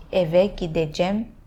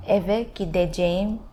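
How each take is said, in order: First: "gideceğim" shortened to "gidejem"; spoken short form of "eve gideceğim"; cut-down form. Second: "gideceğim" with a long "jeh-im" ending; careful, uncut "gideceğim"; full form. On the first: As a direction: cut the end of "gideceğim" to "-jem". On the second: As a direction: sound out all of "Eve gideceğim". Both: Shown as a demonstration. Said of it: "You cut down".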